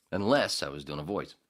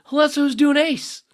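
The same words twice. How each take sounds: First: Said in the usual way. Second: Squeaky high cartoon voice, much louder; Ace voice. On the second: Shown as a demonstration. Radio host demoing his Ace voice, very high and loud. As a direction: pop into a shrill high character voice.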